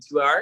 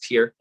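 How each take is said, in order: First: It sounds like 'tire', with two syllables. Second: It sounds like 'tier', with one syllable. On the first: The speaker calls it wrong. "you mean two hour?" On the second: The speaker calls it right. "no, it's tier"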